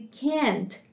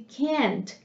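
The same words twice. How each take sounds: First: The vowel is a flat A, American style. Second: The same.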